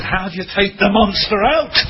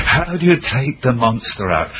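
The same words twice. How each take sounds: First: Higher, eager questioning voice; quoting the young man, pitched well up. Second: Said in the usual way. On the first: Retold or imitated. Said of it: "But he said". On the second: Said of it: "I love that language".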